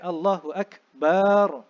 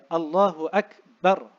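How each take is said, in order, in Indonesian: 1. Huruf b dalam Akbar dipanjangkan. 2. Huruf b dalam Akbar dibaca pendek. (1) "Bukan Allahu Akbar. Ha, itu salah" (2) "huruf ba pada akbar tidak boleh dipanjangkan"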